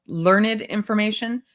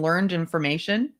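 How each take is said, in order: First: "learned" said as LEARN-id; two-syllable "learned". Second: Said in the usual way. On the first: Acted. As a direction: give "learned" a separate second syllable. Rereads, correcting the word's pronunciation.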